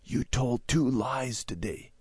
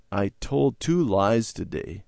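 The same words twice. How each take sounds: First: Slow, hushed accusation; soft stage whisper, drawn out. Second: Slow, subdued admission; mildly shamefaced, measured pace; ashamed confession. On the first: Sister privately accusing Randy in the car, whispering. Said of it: "Debbie poked Randy and whispered". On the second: Randy confessing to his parents, ashamed. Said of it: "Randy hung his head". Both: A narrator's reading.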